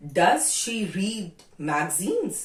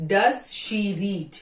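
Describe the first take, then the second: First: Said in the usual way. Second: Does stretched and stressed at the front; लंबा और ज़ोर देकर Does. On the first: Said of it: "अब आते हैं इंट्रोगेटिव पे". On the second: Shown as a demonstration. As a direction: hit Does first, slowly, as the point of the rule. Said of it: "Does पहले आ गया".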